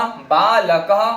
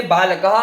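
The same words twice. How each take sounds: First: बालकः drawn out slowly, final कः sounding like कहा; slow visarga demo. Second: Said in the usual way. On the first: Shown as a demonstration. Teacher drawing out बालकः to show the visarga. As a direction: spell बालकः slowly with an echoing ह. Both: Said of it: "विसर्ग का उदाहरण दिया".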